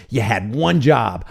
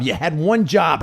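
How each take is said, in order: First: Slow, low "You had one job" with ONE leaned on; stress on ONE. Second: Said in the usual way. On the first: Real, not acted. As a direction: drag it out and hit the word one.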